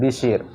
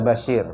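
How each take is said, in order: First: The first vowel is an 'i' sound. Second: The first vowel is an 'a' sound. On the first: The speaker calls it wrong. "bukan Bishir" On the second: The speaker calls it right. "Jadi dibaca Bashir"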